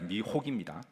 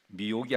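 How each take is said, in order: First: The middle h sound is clearly pronounced. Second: The middle h sound is dropped. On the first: The speaker calls it right. "제가 가끔 발음이 헷갈려가지고" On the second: The speaker calls it wrong. "아니라"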